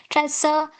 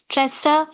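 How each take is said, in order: Both takes have the same delivery.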